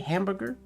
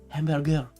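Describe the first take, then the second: First: It is said with an English pronunciation. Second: It is said with a French pronunciation. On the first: "They don't say hamburger" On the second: "They say hamburger"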